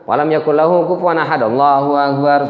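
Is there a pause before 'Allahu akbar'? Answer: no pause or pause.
no pause. The final phrase follows at once with no pause. The prayer is rushed without composure. The speaker calls it wrong. "itu enggak ada tumak ninahnya itu"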